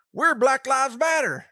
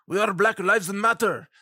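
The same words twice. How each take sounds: First: Loud, higher-pitched redneck holler; put-on redneck rallying shout. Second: Badly faked Middle Eastern accent; horrible terrorist accent. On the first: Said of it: "does that mean a bunch of rednecks". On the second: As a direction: do a hammed-up Middle Eastern accent with added vowels. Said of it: "horrible accent impersonation".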